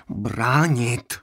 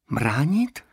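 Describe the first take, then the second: First: Calmer. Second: Incredulous. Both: A narrator's reading. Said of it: "opakoval pět set devítka klidněji".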